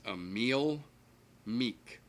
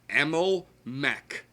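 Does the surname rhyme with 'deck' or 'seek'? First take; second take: seek; deck. First: The surname has a long 'ee' vowel. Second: The surname has a short 'e' vowel. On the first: The speaker calls it right. "The gentleman's name is Emil Meek" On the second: The speaker calls it wrong. "The amount of times I heard them call him Emil Mech"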